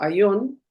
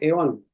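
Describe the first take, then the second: First: The word begins with an 'ai' diphthong. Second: The word begins with a plain 'e' vowel. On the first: "él lo pronuncia como aión" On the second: "algunos lo pronuncian como eón"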